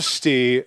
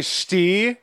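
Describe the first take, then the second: First: Umpire call in a normal register; lower, offhand strike call, no oomph; really casual. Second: Lightly imitated umpire strike call; umpire's strike call. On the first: Retold or imitated. Host imitates Little League kid calling strikes, really casual. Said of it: "but in a normal register". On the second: Host retells a kid calling strikes, mild umpire call. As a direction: draw it out as an understated strike call. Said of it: "like, as a strike".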